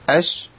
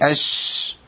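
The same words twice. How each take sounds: First: The sh sound stops when it fades naturally. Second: The sh sound is pushed on past its fade. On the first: The speaker calls it right. "اش بس كده، دي الشين خلصت" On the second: The speaker calls it wrong. "ما قولش اش كده، انا تدخلت وزودت الصوت"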